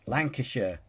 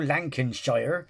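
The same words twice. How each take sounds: First: The ending is reduced, like 'sher'. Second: The ending is said fully, like 'shire'. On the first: The speaker calls it right. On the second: The speaker calls it wrong.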